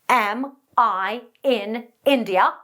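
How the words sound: Each word is broken off with stops between them. The speaker calls it wrong. "break up the airflow every time you speak, like this"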